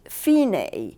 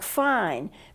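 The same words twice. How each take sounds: First: It does not sound like English fine. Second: It sounds like the English word fine. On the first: The speaker calls it right. "It's fine" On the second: The speaker calls it wrong. "The fine is spelled F I N E, like fine, but it's not pronounced that way in music"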